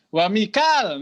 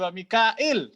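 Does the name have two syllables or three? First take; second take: two; three. First: The name is said with two syllables. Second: The name is said with three syllables. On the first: This is the reading of one transmission line. "Kalau mau konsisten Hafs ya Mikal" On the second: This is the reading of another transmission line. "menjadi wa mikail"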